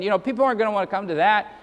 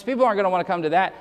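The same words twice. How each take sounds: First: Rattled off fast, mock-sensible shrug; tossing off the excuse quickly; mock reasoning. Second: Rattled off very fast, mock shrug; mock reasoning. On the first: Preacher mocking compromising churches, fast dismissive shrug. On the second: Preacher mocking the excuse about long sermons, very fast. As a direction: rush the lazy excuse out. Same excuse repeated, even faster.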